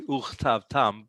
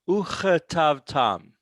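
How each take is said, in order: First: The short vowel after the first consonant disappears. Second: A short vowel is heard after the first consonant. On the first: The speaker calls it wrong. "you're not going to really be wrong if you say uchtav tam" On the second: The speaker calls it right. "you're keeping the schwa"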